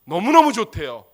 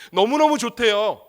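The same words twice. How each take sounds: First: Louder, punched 너무너무; emphatic repeat. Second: Said in the usual way. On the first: Real, not acted. Preacher repeating 너무너무 좋대요 louder to the church. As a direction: lean hard on 너무너무 the second time.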